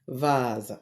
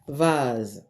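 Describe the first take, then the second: First: The s is said as a buzzing z sound. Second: The same.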